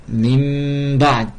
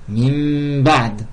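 The two takes are said the same way.

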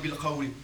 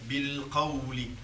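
First: The L sound is short and not held. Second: The L sound is held a little longer. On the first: The speaker calls it wrong. "On dit pas tajhar bil qawli" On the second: The speaker calls it right. "On retient bil qawli"

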